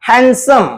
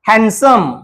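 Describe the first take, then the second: The two takes are said the same way.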